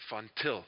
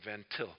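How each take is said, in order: First: The name is said in a non-American way. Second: The name is said in an American way.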